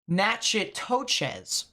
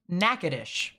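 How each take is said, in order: First: The name is sounded out as it is spelled. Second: The name is said in a shortened local form. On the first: This is how a reader would guess it. The speaker calls it wrong. "you would think it would be" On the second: This is how local people say it. The speaker calls it right. "In actuality, it's pronounced"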